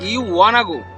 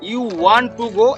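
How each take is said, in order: First: 'Want to' is reduced to one word, 'wanna'. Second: 'Want to' is said in full, two words. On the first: "এটার পরিবর্তে যদি আপনি ওয়ানা লাগান" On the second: "এটার English হবে you ওয়ান্ট টু go"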